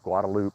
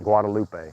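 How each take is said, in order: First: The name is said the local Austin way. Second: The name is said the standard, non-local way. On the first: The speaker calls it right. "they pronounce it Guadalupe in, in Austin" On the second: The speaker calls it wrong. "It's not Guadalupe"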